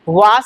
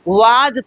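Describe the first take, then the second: First: The word ends with a hissing s sound. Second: The word ends with a buzzing z sound. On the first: The speaker calls it wrong. "वास नहीं" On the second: The speaker calls it right. "वाज पढ़ेंगे"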